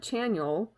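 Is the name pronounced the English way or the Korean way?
English. The name has an English-style pronunciation. The speaker calls it wrong.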